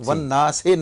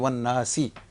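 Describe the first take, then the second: First: The final vowel sounds like 'ay'. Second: The final vowel sounds like 'ee'. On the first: The speaker calls it wrong. "नहीं" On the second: The speaker calls it right. "बल्कि वन्नासी"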